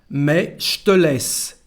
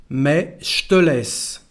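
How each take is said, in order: No difference in how they are said.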